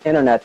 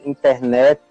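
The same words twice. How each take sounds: First: The stress falls on the first part, in. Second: The stress falls on the final part, net. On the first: This is how English speakers say it. "instead of" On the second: This is how Brazilians say it. "they have the stress syllable on the second word"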